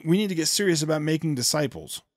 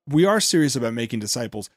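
First: NEED given the weight in a retold claim; stress on NEED. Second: ARE punched, then falling lower; stress on ARE. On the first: Host retelling the preacher's call to make disciples, stress on NEED. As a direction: lean lightly on the word NEED. Quoted claim set against his rebuttal. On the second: Real, not acted. Host rebutting the preacher about making disciples, stress on ARE. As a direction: push back by hitting the word ARE.

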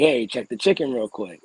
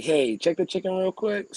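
First: Said in the usual way. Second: Higher, slower request. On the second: Retold or imitated. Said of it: "I'm like".

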